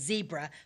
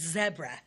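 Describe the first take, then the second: First: It is said with an American pronunciation. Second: It is said with a British pronunciation.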